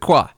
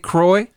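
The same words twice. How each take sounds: First: It is said in a French-style pronunciation. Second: It is said in an English-style, non-French pronunciation. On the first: This is how the French say the word. The speaker calls it right. "They pronounce it Croix" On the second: This is how the company says the name. The speaker calls it wrong. "they're not going to say Croix over there"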